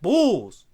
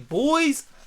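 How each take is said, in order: First: The word sounds like 'bulls' with an 'ull' sound. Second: The word has a clear 'oy' vowel sound. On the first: "They say boys like bulls" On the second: "they don't say it like souls or boys"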